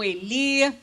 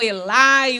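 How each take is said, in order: First: The name ends with an 'ee' sound. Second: The name ends with an 'eye' sound. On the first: Other people say it this way. "outros falam Eli" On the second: Some people say it this way. "Uns falam Elai"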